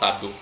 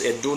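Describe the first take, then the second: First: The name begins with an 'ah' vowel. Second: The name begins with an 'eh' vowel. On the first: This is how outsiders say it. The speaker calls it wrong. "Ado is a Yoruba way of calling Edo people" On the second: This is how the people themselves say it. The speaker calls it right. "It's Edo"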